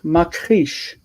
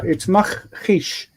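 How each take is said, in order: First: The middle consonant is a hard k sound. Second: The middle consonant is a throaty kh sound. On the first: The speaker calls it wrong. "as if it were ka" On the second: The speaker calls it right. "But it can't be ka, it's makrish"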